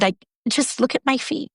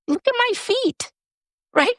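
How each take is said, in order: First: Said in the usual way. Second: Much higher, hushed coaxing to herself; urging herself to look down and feel real; self-encouragement. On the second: Retold or imitated. To herself while recovering, a much higher coaxing voice.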